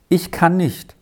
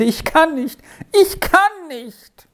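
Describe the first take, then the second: First: Slightly higher, a touch upset; understated emotion in a small refusal; moved. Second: Very high, drawn-out anguished cry; groaning wail. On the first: Boy answers his friend's question, mildly moved. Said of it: "entgegnete Peppino bewegt". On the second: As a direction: wail it out, stretching the words. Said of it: "ächzte und stöhnte". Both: A narrator's reading.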